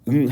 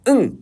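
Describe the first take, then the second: First: The word is said plainly, without extra force. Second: The word is said with a forceful onset. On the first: "우리가 그냥 응 할 수도 있겠지만" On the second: "응 이렇게 약간 힘을 줄 수가 있잖아"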